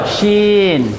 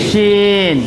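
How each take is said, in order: The two takes are said the same way.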